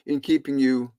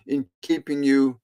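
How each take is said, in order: Both takes have the same delivery.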